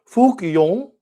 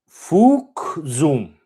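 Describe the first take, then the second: First: It is said in a southern Vietnamese accent. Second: It is said in a northern Vietnamese accent. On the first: "In the southern accent" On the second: "in the northern accent"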